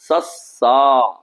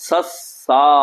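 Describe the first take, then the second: The two takes are said the same way.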